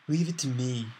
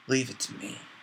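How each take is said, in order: First: The voice is a slow, relaxed drawl. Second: The voice is rough and raspy. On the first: The character sounds like a stoner. "That's a stoner" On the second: The character sounds like a hard-living addict. "You don't like the little raspiness?"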